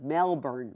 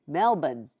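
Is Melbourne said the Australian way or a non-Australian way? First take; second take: non-Australian; Australian. First: It is said in a non-Australian way. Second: It is said the way Australians say it. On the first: Nobody actually says it like this. The speaker calls it wrong. "No one says" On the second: This is how locals say it. The speaker calls it right. "But Australians say"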